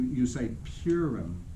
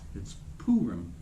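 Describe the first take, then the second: First: The first syllable does not sound like 'pooh'. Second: The first syllable sounds like 'pooh'. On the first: The speaker calls it wrong. "you've really mispronounced the word" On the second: The speaker calls it right. "It's like Winnie the Pooh"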